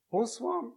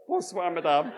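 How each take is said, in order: First: Higher, polite French madame greeting; lightly voiced French landlady; French woman. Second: Eager, slightly louder reply with a laugh, rising; Mervyn replying. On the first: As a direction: greet the guests like a French hostess. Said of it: "A woman opened the door and said". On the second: Retold or imitated. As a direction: answer back keenly in schoolboy French. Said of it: "No, sorry, Mervyn said".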